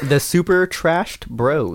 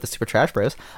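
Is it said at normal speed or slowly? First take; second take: slowly; normal. First: It is said slowly. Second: It is said at normal speed.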